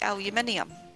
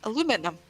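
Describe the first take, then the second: First: The word is said the British way. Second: The word is said the American way. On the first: "In the U K we say aluminium" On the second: "America you say"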